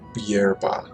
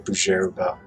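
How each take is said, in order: First: The middle consonant is a 'y' sound. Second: The middle consonant is a 'j' sound. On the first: "Like they said it with the the Y pronunciation of the J" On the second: "how differently they say Bujerba"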